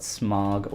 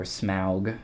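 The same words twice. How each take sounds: First: "Smog" with an open ah vowel, rhyming with dog; Smaug as "smog". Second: "Smaug" with an ow vowel, as in cow; Smaug as "smowg". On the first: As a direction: say "Smog" like the word for haze. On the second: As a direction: say "Smaug" with the gliding vowel of house. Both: Shown as a demonstration. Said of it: "however you say that".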